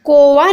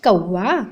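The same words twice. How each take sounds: First: "कौवा" as ko-va with long o; wrong pronunciation. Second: "कौवा" as kau-wa, with au diphthong; correct pronunciation. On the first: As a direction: say "कौवा" with a single v and pure o. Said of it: "नहीं होता बच्चों". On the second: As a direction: glide through au in "कौवा". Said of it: "क्या होता है". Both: Shown as a demonstration.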